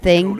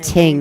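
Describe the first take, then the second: First: The word starts with a soft th sound. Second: The word starts with a hard t sound. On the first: "instead of the or th" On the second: "it's a t"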